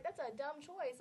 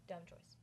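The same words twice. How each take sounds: First: That's a dumb choice, louder and higher, exclaimed; emphatic verdict. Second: Deadpan verdict. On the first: Judging the hostess after the fight, louder exclaiming. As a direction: call it out loudly. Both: Real, not acted.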